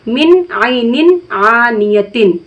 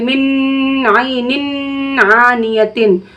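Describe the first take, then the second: First: The n sound passes quickly without holding. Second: The n sound is held in the nose. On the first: The speaker calls it right. "रोक कर नहीं पढ़ेंगे" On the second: The speaker calls it wrong. "गुन्ना हो गया"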